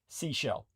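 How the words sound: It is said like the English word seashell. "Americans, you might as well just say Seashell"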